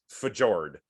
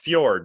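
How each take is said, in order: First: The j is said like an English J. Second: The j is said like a Y sound. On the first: The speaker calls it wrong. "not Fjord" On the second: The speaker calls it right. "it's Fjord"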